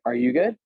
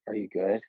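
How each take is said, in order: First: The voice rises, sounding upbeat. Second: The voice falls, sounding downbeat.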